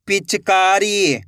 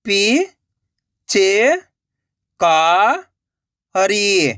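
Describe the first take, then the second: First: Slow, stretched reading of the whole word; joined-up word. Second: Syllable by syllable. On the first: Teacher showing learners the finished word, slowly joined up. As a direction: blend the syllables into one drawn-out word. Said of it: "तो मिलके बन जाएगा". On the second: Teacher sounding out a word for learners, syllable by syllable. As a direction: separate drawn-out syllables with long gaps. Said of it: "एक एक अक्षर का उच्चारण करके". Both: Shown as a demonstration.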